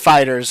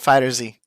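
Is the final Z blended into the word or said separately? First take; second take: blended; separate. First: The Z blends in like a plural ending. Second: The Z is said as a separate letter. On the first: "Fighters is actually accurate" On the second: "I've always pronounced it Fighter Z"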